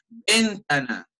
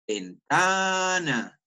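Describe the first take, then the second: First: Ventana misstressed on a stretched VEN; wrong stress. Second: Ventana with a long, held TA; stress on TA. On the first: Teacher shows how nobody says ventana, stress wrongly on VEN. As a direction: lean hard on VEN in "ventana". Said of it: "yo nunca voy a decir ventana". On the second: Teacher shows where ventana carries its accent, stretched TA. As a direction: draw out the TA in "ventana" slowly. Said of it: "Donde yo más suba". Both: Shown as a demonstration.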